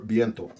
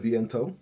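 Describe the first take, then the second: First: The word is said with a Spanish accent. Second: The word is said with an English accent.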